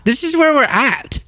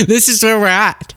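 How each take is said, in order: First: Much higher, incredulous repeat; exasperated pitch-up; rising disbelief. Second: Higher exasperated repeat; exasperated disbelief. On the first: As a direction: say it again, half laughing in disbelief. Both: Real, not acted.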